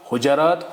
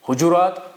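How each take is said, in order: First: The j is followed by an a vowel. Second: The j is followed by a u vowel. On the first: "फतह" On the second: "जीम पे दमा"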